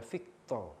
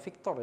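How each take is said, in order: First: "Victor" said as "Vikto"; final r dropped. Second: Said in the usual way. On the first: Shown as a demonstration. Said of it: "bukan Victor, ya, Victor". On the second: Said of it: "bukan Victor".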